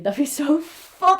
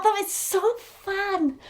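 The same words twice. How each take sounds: First: Said in the usual way. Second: Higher, slower, dreamy repeat of so fun; a longing echo, higher and drawn out; wistful repeat. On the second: Real, not acted. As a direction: say it again, drifting up and slowing down as if picturing it.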